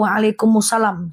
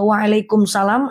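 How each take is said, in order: First: The m links into salam through a vowel. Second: The m is closed off with no added vowel. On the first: "Tapi waalaikumsalam berarti teman-teman lanjutkan" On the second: "Kalau waalaikum berarti teman-teman sukunkan, teman-teman matikan"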